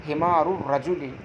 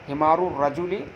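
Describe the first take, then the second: No difference in how they are said.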